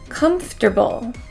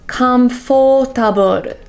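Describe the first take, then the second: First: The middle syllable is reduced to a weak fur. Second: The middle syllable has a full, strong O vowel. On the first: The speaker calls it right. "It should just be fur" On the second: The speaker calls it wrong. "make the O sound too strong"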